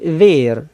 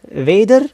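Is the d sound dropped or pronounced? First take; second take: dropped; pronounced. First: The d sound is dropped. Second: The d sound is pronounced. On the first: This is the informal form. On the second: This is the full form.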